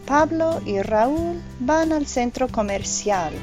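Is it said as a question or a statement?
statement. It is said with a statement intonation. It states a fact. "is a statement"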